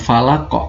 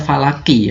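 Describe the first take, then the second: First: The word ends on a bouncing q sound. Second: The word ends with a short i vowel. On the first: The speaker calls it right. "Tapi dibacanya adalah falaq" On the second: The speaker calls it wrong. "Kan kita nggak mungkin baca falaki ya"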